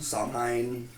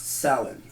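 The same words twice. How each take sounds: First: The name is said the common anglicized way. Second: The name is said the Irish Gaelic way. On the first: The speaker calls it wrong. "A lot of people pronounce it or know it more as like" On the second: The speaker calls it right. "it's properly pronounced"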